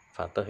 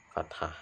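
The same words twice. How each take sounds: First: "Fathah" diucapkan "fateh"; pelafalan lokal fathah. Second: "fathah" diucapkan "fat-hah"; pelafalan lengkap fathah. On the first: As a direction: ucapkan "Fathah" dengan akhiran lemah, "fa-teh". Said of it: "atau dibaca fathah". ("Fathah" dilafalkan ala lokal: "fateh") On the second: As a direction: ucapkan "fathah" dengan h jelas, "fat-hah". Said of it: "Fathah itu fathah, ya". ("fathah" dilafalkan utuh: "fat-hah") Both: Shown as a demonstration.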